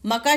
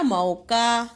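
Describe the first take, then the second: First: म का with a short "a" after म; quick first vowel in म का; misspelt word. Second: मौका with a long औ; मौका sounded out as "mau-kaa"; corrected word. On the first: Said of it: "शब्द नहीं होता". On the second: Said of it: "क्या होता है". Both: Shown as a demonstration.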